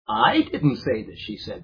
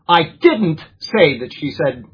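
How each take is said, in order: First: The word "I" carries the strongest stress. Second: The word "didn't" carries the strongest stress. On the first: Somebody else said it. "that means I'm saying somebody else did" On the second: The speaker firmly denies ever saying it. "now you know that I'm adamantly saying that I didn't do it"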